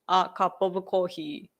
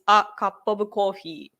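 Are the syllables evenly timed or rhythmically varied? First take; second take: even; even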